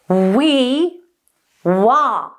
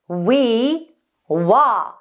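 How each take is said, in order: First: The sound buzzes forward at the lips. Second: The same.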